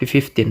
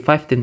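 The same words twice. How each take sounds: First: The first syllable sounds like 'fif'. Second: The first syllable sounds like 'five'. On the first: The speaker calls it right. "tapi fifteen" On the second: The speaker calls it wrong. "bukan jadi fifteen"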